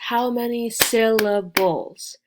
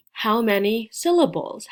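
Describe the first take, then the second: First: SYLLABLES slowed and broken into three loud beats. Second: Said in the usual way. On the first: Shown as a demonstration. Teacher asks learners to count, syllables broken apart. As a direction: punch out each beat of "syllables", slowly.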